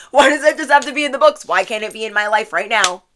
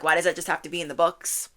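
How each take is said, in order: First: Emphatic demand. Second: Said in the usual way. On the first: Acted. Reader voices the viewer wanting book romance, emphatic demand. Repeats imagined question emphatically after laughing.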